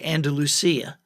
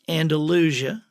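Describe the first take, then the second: First: It is said the desert Southwest way. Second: It is said the local Alabama way. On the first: The speaker calls it wrong. "anybody from the desert Southwest generally will say Andalusia" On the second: The speaker calls it right. "but it's Andalusia"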